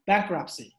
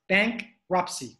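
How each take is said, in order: First: "bankruptcy" quickly, run together as one word. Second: "bankruptcy" slow, split into bank and ruptcy; slow pronunciation model. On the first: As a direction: say "bankruptcy" in one go, without a break. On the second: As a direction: model "bankruptcy" piece by piece for learners. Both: Shown as a demonstration.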